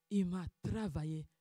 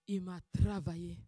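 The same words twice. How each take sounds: The two takes are said the same way.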